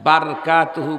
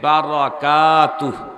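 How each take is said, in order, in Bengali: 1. 'bar' এর পরের স্বরধ্বনিটি বাদ যায়। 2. 'bar' এর পরের স্বরধ্বনিটি স্পষ্টভাবে থাকে।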